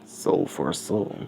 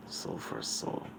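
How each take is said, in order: First: Slow, softened echo; hushed echo of the skull's words; single echo. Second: Whispered echo of a voice; faint, breath-only repeat. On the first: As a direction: repeat it slowly and softly, like one echo. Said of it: "just one echo". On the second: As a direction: whisper it very softly, like an echo inside someone's head. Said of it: "deep booming voice echoes throughout Deku's head". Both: Acted.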